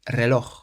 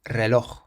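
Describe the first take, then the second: The two takes are said the same way.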